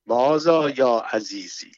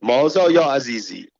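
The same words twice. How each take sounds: First: A light mock laugh, a little slow; lightly laughing, unhurried question. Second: A mildly sharp question, a little louder; mildly curt, demanding ask. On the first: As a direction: toss the question off with an understated chuckle. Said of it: "با خنده گفت". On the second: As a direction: snap the question at him, understated. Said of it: "با تندی از او پرسید". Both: A narrator's reading.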